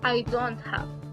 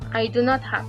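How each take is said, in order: First: Do not is contracted into one syllable. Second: Do not is said as two full words. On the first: "su forma corta" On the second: "la forma larga"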